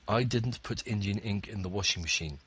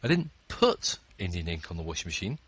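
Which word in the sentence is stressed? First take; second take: none; put. First: No word is stressed; the delivery is flat. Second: The stress is on the word put. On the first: "I tried to read that with no intonation" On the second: "I threw it in there"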